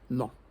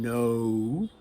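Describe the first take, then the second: First: The vowel is a single unchanging sound. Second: The vowel glides as a long diphthong. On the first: The speaker calls it wrong. "people will say no" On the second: The speaker calls it right. "which is the long O, which we say, it's actually a diphthong"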